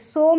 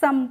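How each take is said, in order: First: The vowel is an 'oh' sound. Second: The vowel is a short 'uh' sound. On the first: The speaker calls it wrong. "सोम नहीं पढ़ेंगे" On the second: The speaker calls it right. "सम पढ़ेंगे"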